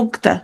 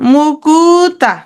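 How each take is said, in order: First: The u vowel between k and t is dropped. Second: The word has a u vowel between k and t. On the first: "এই উ ধ্বনিটা আমি নিয়ে ফেললাম" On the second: "ধরো মুকুতা"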